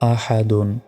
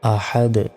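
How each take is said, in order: First: The word ends with a full 'dun' syllable. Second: The word ends on a bare 'd' sound. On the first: The reciter keeps going without stopping. "দাল দুই পেশ দুন" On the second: The reciter stops at this word. "এখানে থামলে শেষ অক্ষরে সাকিন হবে"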